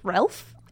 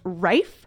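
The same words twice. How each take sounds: First: The name is read as spelled, with an L. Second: The name is said without an L sound. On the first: This is how the spelling suggests it is said. The speaker calls it wrong. "you might look at his name and think it's Ralph" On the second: This is how the name is actually said. The speaker calls it right. "It's pronounced Ralph"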